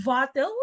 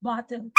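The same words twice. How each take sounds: First: Wattle said with a V, vattle; wrong V for B. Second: Bottle with a clean B; bottle, plain B; correct B. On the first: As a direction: put a buzzing V in place of B in Wattle. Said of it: "the worst is when you say". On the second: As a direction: close the lips for the B in bottle. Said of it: "instead of". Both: Shown as a demonstration.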